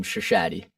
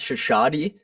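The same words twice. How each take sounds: First: "Shashadi" in an Americanized pronunciation; name "Shashadi" with Americanized vowels. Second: "Shashadi" said in its original, non-Americanized form; name "Shashadi" with its original vowels; proper pronunciation of Shashadi. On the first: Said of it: "Americanized version of the, of the name". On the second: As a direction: say "Shashadi" as properly pronounced, not anglicized. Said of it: "I think it's properly pronounced". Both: Shown as a demonstration.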